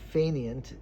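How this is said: The word is said with an English pronunciation.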